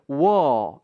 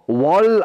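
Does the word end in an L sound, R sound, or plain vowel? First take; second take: plain vowel; L sound. First: The word ends on a plain vowel. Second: The word ends with an L sound. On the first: "영국 발음은 끝에 있는 R 발음을 잘 발음을 안 해요" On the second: "이렇게 발음해버리면 이건 L 발음이고요"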